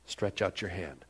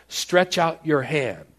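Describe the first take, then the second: First: Soft, low, quiet order; quiet, tender version of the command; gentle command. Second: Firm, slow command, louder; slow, loud commanding Jesus. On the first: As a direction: say it gently, almost under the breath. Same command said softly. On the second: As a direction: give the order with full authority. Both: Acted.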